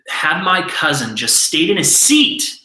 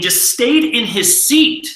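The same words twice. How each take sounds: First: Said in the usual way. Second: Just stayed in his seat, drawn out slowly, higher and louder; slow emphatic repeat. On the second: Shown as a demonstration.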